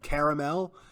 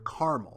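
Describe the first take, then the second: First: It is said the Southern and East Coast way. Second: It is said the Western and Northern way. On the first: "southern United States and and maybe East Coast kind of uh, part of the country that that says the word caramel" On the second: "kind of the west and northern parts of the country say the word caramel"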